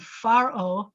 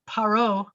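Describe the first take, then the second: First: The word begins with an F sound. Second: The word begins with a P sound. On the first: "now we're calling him Pharaoh because it's coming after the preposition le" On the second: "his name is Paro"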